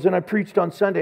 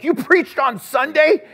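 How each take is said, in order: First: Said in the usual way. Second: Loud, high, drawn-out disbelieving question; incredulous, pitched way up and slowed; astonished. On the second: Retold or imitated. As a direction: echo it back in acted astonishment. Retelling astonished reply to friend.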